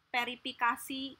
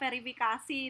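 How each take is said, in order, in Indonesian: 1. Kata ini diawali bunyi P. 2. Kata ini diawali bunyi V.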